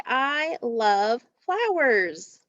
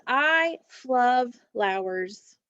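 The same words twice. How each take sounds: First: I love flowers said slowly and clearly; correct version slowly. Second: I flub flowers, each word drawn out; spoonerism read slowly. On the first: Teacher to class, slowly saying I love flowers. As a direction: give the fixed phrase, slow and clear. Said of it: "It's supposed to say". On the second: Teacher to class, slowly reading I flub flowers. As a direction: read the swapped phrase slowly and clearly. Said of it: "It is". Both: Shown as a demonstration.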